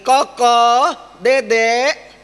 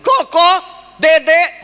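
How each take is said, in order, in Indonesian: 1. Nama-nama itu dipanggil dengan suara yang dinaikkan. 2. Nama-nama itu dipanggil dengan suara sangat keras dan tajam. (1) "dengan suara yang lebih naik lagi" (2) "kita suaranya lebih keras lagi"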